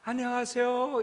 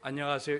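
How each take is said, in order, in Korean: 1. 밝고 높은 목소리로 말해요. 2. 낮고 평평한 목소리로 말해요. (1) "이렇게 목소리를 띄워요" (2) "이러면요 싸우는 줄 알아요"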